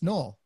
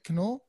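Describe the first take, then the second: First: The name begins with no K sound. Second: The name begins with a pronounced K sound. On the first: The speaker calls it wrong. "you always think, oh, it's just Noel" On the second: The speaker calls it right. "It's a non-silent K, so I appreciate you getting the pronunciation right"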